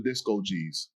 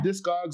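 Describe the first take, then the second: First: It is said as disco plus geez. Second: It is said as disk plus cogs. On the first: "or Disco G's?" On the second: "Is it Discogs"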